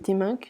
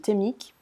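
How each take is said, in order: First: The name has an n sound before k. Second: The name ends without an n sound before k. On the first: The speaker calls it right. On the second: The speaker calls it wrong.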